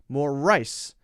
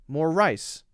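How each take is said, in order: First: The emphasis falls on the R sound. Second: The emphasis falls on the R sound.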